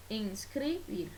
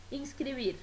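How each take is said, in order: First: "inscribir" slowly split into ins-cri-bir; "inscribir" in three drawn-out beats, ins, cri, bir; syllable by syllable. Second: Said in the usual way. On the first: Shown as a demonstration. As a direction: separate each syllable of "inscribir". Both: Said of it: "la división silábica".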